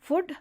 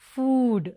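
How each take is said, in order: First: The vowel is short, as in foot. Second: The vowel is a long oo sound. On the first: The speaker calls it wrong. "Not ఫుడ్" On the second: The speaker calls it right. "But ఫుడ్"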